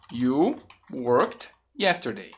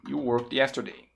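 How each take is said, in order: First: "You... worked... yesterday", spaced word by word; slow careful model. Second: Said in the usual way. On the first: Shown as a demonstration. Teacher gives learners the affirmative, slow and deliberate.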